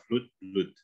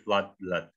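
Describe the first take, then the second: First: FLOOD, BLOOD with an oo vowel, like flute; wrong oo reading. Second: FLOOD, BLOOD with an uh vowel, like flad, blad; correct reading. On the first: Coach showing how not to read them, oo vowel. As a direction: say FLOOD, BLOOD as floot, bloot. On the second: Coach giving the right reading after the wrong one, uh vowel. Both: Shown as a demonstration. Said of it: "itu bacanya nggak O".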